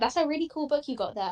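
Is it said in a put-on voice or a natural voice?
natural. It is said in his natural voice.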